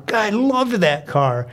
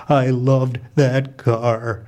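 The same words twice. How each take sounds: First: Higher-pitched, heartfelt exclamation; fond enthusiasm. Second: Slow, low grieving mom voice; crushed. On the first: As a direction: gush over a beloved old car. Narrator fondly recalls first car. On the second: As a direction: grieve for the car, dragging out each word. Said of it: "My mom is clearly crushed". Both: Acted.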